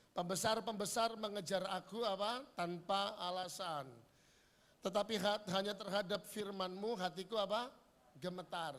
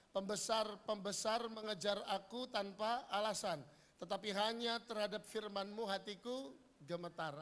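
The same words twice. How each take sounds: The two takes are said the same way.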